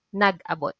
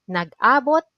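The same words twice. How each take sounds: First: Nag-abot said quick with a falling end; staying sense, said fast; stress on last a. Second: Nag-abot with a rising lift on the first a; meet-up sense, stress early. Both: Shown as a demonstration. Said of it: "there is a difference on the stress at a".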